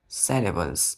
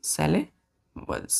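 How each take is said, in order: First: Said in the usual way. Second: "syllables" broken in two with a long pause. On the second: Shown as a demonstration. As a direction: say "syllables" slowly as sylla... bles. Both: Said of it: "सिलेबल क्या है".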